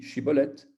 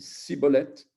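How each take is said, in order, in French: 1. Le mot commence par un son 'sh'. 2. Le mot commence par un son 's'. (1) "un Esh" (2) "il ne pouvait pas bien prononcer Shiboleth"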